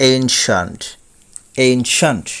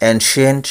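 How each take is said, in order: First: Ancient as "AYN-shant", falling; two-part ancient, "ayn" then "shant"; correct pronunciation. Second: Ancient as "en-si-ent"; common mispronunciation. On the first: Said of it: "সঠিক উচ্চারণ হবে". (ancient-এর সঠিক উচ্চারণ "এইনশান্ট") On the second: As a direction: say ancient with a clear "ent" ending. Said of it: "বলে থাকি". (ancient-এর প্রচলিত উচ্চারণ "এনশিয়েন্ট") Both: Shown as a demonstration.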